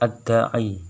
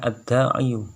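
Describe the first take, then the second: First: The word ends on a plain i sound. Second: The word ends with an added yu syllable. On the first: This is the form actually pronounced. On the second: This is the underlying full form.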